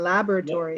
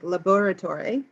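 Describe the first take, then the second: First: It is said with a non-British pronunciation. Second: It is said with the British pronunciation. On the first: "is the English way" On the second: "is the British way"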